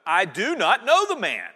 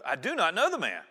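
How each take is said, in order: First: Louder, forceful oath; cursing denial. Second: Said in the usual way. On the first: A narrator's reading. Louder heated oath. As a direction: Peter swears and curses at the bystanders, forceful denial. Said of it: "Then he began to curse". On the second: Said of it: "he denied it with an oath".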